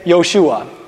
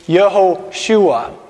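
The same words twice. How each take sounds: First: The name is said quickly, with syllables shortened. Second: The name is said at normal speed, fully. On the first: "if you want to say it fast in Hebrew" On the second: "It's Yehoshua"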